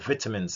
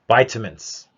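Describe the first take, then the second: First: It is said in a British accent. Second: It is said in a non-British accent.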